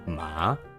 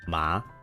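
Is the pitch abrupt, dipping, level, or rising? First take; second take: dipping; rising. First: The pitch goes down and then up. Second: The pitch rises like a question. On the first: "you're going down and up" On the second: "If it's a line that goes up, it's like a question"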